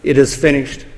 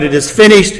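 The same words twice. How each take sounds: First: Soft, spent, dropping low on the words; a quiet last breath of a cry; hushed cry. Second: A touch of victory, held at a fuller level; lightly voiced triumph, not a shout; mild triumphant cry. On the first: Retold or imitated. The Son on the cross, hushed and spent. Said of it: "As soon as the Son cries out". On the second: Christ crying out at the cross, mildly triumphant. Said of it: "has cried out triumphantly, victoriously".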